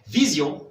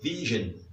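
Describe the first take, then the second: First: It is said with French pronunciation, ending in zion. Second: It is said with English pronunciation, ending in zhun. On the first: "quand vous avez vision" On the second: "en anglais, vision"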